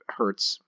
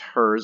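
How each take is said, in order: First: The name ends with a ts sound. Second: The name ends with a plain s sound. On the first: "although I suppose you could pronounce it, uh, yeah, Hertz" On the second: "not Hertz, just Hers"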